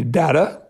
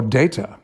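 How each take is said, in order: First: Data said as DATT-uh; first vowel of Data short, not "day"; short-A pronunciation. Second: Data said as DAY-tuh; long A at the start of Data; long-A pronunciation. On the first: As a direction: say Data with a short, open first A, DAH-tuh. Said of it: "how we should pronounce the". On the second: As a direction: say Data with the first syllable like "day". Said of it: "I was the one that campaigned for Data". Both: Shown as a demonstration.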